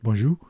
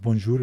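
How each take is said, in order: First: The word is said with French sounds. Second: The word is read with English sounds. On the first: The speaker calls it right. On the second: The speaker calls it wrong. "is not"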